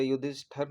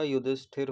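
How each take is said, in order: First: युधिष्ठर said ending in 'ṭhar' with no i; wrong spelling said aloud: युधिष्ठर, 'yudhishthar'; wrong form. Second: युधिष्ठिर said ending in 'ṭhir' with an i; right spelling said aloud: युधिष्ठिर, 'yudhishthir'; correct form. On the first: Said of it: "युधिष्ठर नहीं होता". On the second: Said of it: "युधिष्ठिर होता है". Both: Shown as a demonstration.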